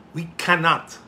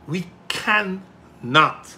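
First: Said in the usual way. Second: "cannot" drawn out slowly, split into can, not; emphatic CANNOT. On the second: Real, not acted. Politician rejecting the vat, "cannot" slow and emphatic. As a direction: stretch "cannot" into two weighted beats.

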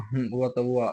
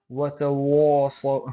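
First: Said in the usual way. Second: Slow, loud ওয়াতা ওয়া with a heavy, thick waw; mock the hafez who recites ওয়াতা ওয়া too thick and slow; imitating a common mistake. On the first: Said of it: "এমনি পড়ে". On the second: Teacher mimics hafez reciting wrongly, slow and loud. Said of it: "অনেক হাফেজ সাহেবকে দেখা যায়".

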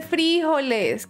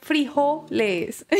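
First: Frijoles, drawn out with the weight on the i; stress on the i. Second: Frijoles slowly, leaning on the later syllables, FRI-JO-les; corrected stress. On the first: Shown as a demonstration. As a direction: say frijoles slowly, accenting FRI. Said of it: "como la tilde y el acento en la i". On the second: Retold or imitated. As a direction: correct them with frijoles, accent moved off the i onto jo. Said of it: "mi familia mexicana me corrige".

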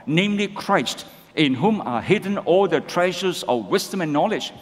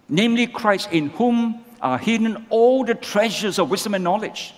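First: Scripture read together with the congregation; measured group reading of the verse; read-along. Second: Driving the point home from the pulpit; emphatic repeat. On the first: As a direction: read it steadily, in step with everyone. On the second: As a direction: repeat the verse with preaching force, hitting Namely. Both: Shown as a demonstration. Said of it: "Let's read together".

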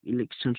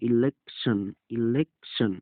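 First: Said in the usual way. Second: election with a gap before the last syllable. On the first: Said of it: "শব্দের অর্থ হচ্ছে". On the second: Shown as a demonstration. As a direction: say election in careful separate parts. Teacher demonstrates syllables of spelt word. (ইলেকশন শব্দটি ভেঙে ভেঙে)

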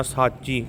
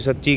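First: ਸਾਚੀ with a long aa, saa-chee; ਸਾਚੀ with open aa and a single ch; long-vowel pronunciation. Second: ਸੱਚੀ with a short vowel and doubled ch; quick ਸੱਚੀ, said sach-chee; mispronunciation demo. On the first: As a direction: hold the first vowel of ਸਾਚੀ. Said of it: "ਕੰਨਾਂ ਲਾ ਕੇ ਬੋਲਣਾ". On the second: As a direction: clip the first vowel of ਸੱਚੀ. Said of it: "ਕਈ ਵਾਰੀ ਅਸੀਂ ਸੱਚੀ ਕਹਿ ਜਾਣੇ". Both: Shown as a demonstration.

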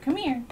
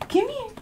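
First: Said in the usual way. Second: High squeaky call to a dog; squeaky dog talk. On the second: Real, not acted. Calling her dog.

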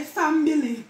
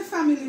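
First: "family" said as fambili, added b; Jamaican pronunciation. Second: Said in the usual way. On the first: Shown as a demonstration. Showing viewers the Jamaican "family", fambili. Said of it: "We put B in it". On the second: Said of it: "We ain't say family".

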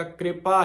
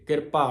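First: ਕਿਰਪਾ said with the subscript r joined, kripa; correct pronunciation. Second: ਕਿਰਪਾ split into ki-ra-pa; wrong pronunciation. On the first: Teacher showing the sangat ਕਿਰਪਾ said as kripa. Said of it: "ਜਿੱਥੇ ਥੱਲੇ ਰਾਰ ਆਏਗਾ". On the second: Teacher showing the sangat the wrong way to say ਕਿਰਪਾ. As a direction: say ਕਿਰਪਾ as ki-ra-pa, the mistake. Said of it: "ਕਿਰਪਾ ਨਹੀਂ". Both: Shown as a demonstration.

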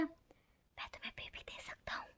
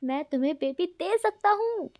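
First: Whispered secret into his ear. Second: Shouting. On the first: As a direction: breathe it close to the ear. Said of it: "कान में जाके बोलता है". (कान में फुसफुसाकर) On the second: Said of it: "wing चिल्लाकर बोलता है". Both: Acted.

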